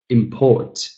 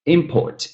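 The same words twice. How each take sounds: First: "Import" as im-PORT; the verb import, end-stressed; second-syllable stress. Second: "Import" as IM-port; the noun import, front-stressed; first-syllable stress. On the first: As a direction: hit the final syllable of Import. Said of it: "second syllable". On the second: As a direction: hit the opening syllable of Import, higher. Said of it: "first syllable". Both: Shown as a demonstration.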